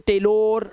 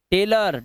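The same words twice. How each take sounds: First: टेलर ending in a long "-lor"; wrong pronunciation. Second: टेलर ending in a schwa "-ler"; correct pronunciation. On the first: Teacher showing what to avoid, टेलर with o. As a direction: say टेलर as "tay-lore". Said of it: "ओ नहीं करना है". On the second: Teacher modelling for pupils, टेलर with short "a". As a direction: say टेलर as "tay-lur". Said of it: "इसलिए इसे पढ़ते हैं टेलर". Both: Shown as a demonstration.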